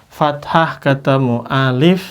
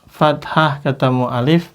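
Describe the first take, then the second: Both takes have the same delivery.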